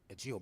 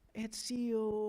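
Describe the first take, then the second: First: The name is said in a stern, formal tone. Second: The name is said in a soft, gentle tone.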